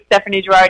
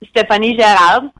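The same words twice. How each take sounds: First: The name is said with an American accent. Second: The name is said with a French accent.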